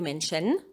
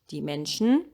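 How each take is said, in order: First: The vowel in the final syllable is fully pronounced. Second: The vowel in the final syllable is dropped. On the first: The speaker calls it wrong. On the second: The speaker calls it right.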